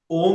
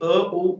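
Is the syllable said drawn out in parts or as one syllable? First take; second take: one syllable; drawn out. First: It is said as one single syllable. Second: It is drawn out as separate parts. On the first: The vibration is felt in the upper body. "ओम म्हणलं तर हा एक वेगळा उच्चार झाला" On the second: The energy rises upward. "अशा पद्धतीनं जोडत जोडत म्हटलं तर तो थोडा वेगळा"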